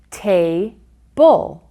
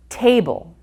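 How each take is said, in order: First: Ta-bull as two separated syllables; Ta-bull pulled apart for counting. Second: Said in the usual way. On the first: Shown as a demonstration. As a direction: say Ta, pause, then bull. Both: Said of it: "count the syllables".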